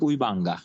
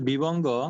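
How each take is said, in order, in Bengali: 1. এটি পালি উচ্চারণে বলা হচ্ছে। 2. এটি বাংলা উচ্চারণে বলা হচ্ছে। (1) "ফালিটা হচ্ছে যে উই বাঙ্গা" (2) "বাংলাটা হচ্ছে যে বিবঙ্গ"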